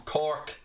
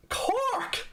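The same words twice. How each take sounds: First: Said in the usual way. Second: Put-on high, sing-song Cork accent; mock Cork accent. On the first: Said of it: "Do I sound like this". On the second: Streamer to viewer asking his home, in a mock Cork accent. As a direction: ham up a Cork accent in disbelief. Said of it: "My accent's very, very non-Cork".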